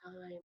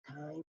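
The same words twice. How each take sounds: First: A barely audible "Time"; soft voice. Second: A hushed, almost breathless "Time"; quiet call in the ear. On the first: Coach ends the wrestler's round with a soft call. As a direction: say it softly, almost under your breath. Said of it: "and a soft voice". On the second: Coach calls time softly in the wrestler's ear, hushed. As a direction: murmur the call right into his ear. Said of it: "Right in my ear". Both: Retold or imitated.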